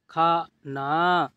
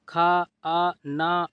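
First: खाना joined into one word, falling; blended reading. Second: खाना slowly, broken into separate sounds; sounded out. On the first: Teacher completing the word for learners, blended reading. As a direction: read खाना whole after sounding it out. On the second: Teacher showing learners easy reading, खाना sounded out. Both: Shown as a demonstration. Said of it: "इस तरीके से आप पढ़िए".

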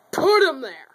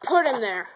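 First: Louder, exasperated command on "Put"; frustrated. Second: Said in the usual way. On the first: Real, not acted. Kid frustrated by messy toy race, barking louder. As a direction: snap it out, fed up with the mess. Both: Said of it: "I am extremely frustrated".

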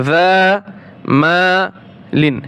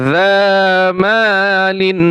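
First: যা Mullin split with a pause, Mullin very slow; slow, syllable-by-syllable model; broken into syllables. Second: Said in the usual way. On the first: Shown as a demonstration. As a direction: break যা and Mullin apart, slowly. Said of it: "আমি ভেঙে ভেঙে বলছি". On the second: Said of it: "একসাথে".

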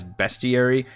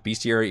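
First: "bestiary" said as BEST-ee-ary; as technically written. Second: "bestiary" said as BEES-tee-ary; chosen pronunciation. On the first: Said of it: "it technically reads as". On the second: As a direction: say "bestiary" with a long ee, like beast. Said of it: "I am using the pronunciation of". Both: Shown as a demonstration.

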